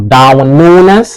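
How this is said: The name is said in a Scouse accent.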